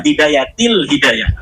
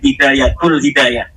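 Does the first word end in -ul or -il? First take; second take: -il; -ul. First: The first word ends with an i vowel. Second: The first word ends with a u vowel. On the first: The speaker calls it right. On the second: The speaker calls it wrong. "katanya dibacanya"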